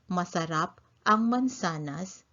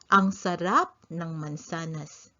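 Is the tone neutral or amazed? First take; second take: neutral; amazed. First: It is said in a plain, neutral tone. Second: It is said in an awed, amazed tone.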